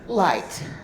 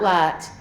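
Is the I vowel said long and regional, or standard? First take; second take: standard; long. First: The I vowel is said the standard way. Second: The I vowel is long, in the regional accent. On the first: It sounds the way intellectual speech is said to sound. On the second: It signals the speaker's regional roots.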